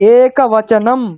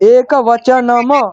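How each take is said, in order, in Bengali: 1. শব্দটি শুধু 'm' ধ্বনি দিয়ে শেষ হয়েছে। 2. শেষের 'm'-এর পরে একটি হ্রস্ব স্বর আছে। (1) "ময়ের পরে কিন্তু অকারটা নেই" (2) "একবচনম নয়"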